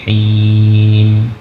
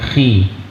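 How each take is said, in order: First: It starts with a soft, breathy h sound. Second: It starts with a rough, scraping kh sound. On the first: The speaker calls it right. "tapi him" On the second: The speaker calls it wrong. "bukan khi"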